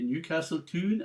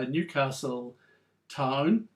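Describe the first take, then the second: First: Town is said in a Geordie accent, like 'tune'. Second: Town is said in a standard accent. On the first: The line rhymes. "if you were from um, the northeast of England, you would read" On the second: The line does not rhyme. "if you read that to yourself, it wouldn't rhyme"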